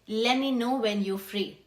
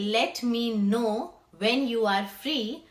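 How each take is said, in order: First: The words are contracted and run together. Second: Every word is said fully and separately. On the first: "let me becomes lemme and you are becomes you're" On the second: "So you will not say"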